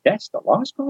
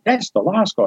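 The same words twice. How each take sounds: First: "That's the law school?" rising high at the end, amazed; surprised question. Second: Said in the usual way. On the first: Retold or imitated. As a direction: echo it back, can't believe it. Echoing back in disbelief.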